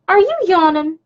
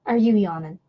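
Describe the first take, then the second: First: High-pitched pet-talk question; puppy talk. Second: Said in the usual way. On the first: Real, not acted. Owner to yawning puppy, high pet-talk.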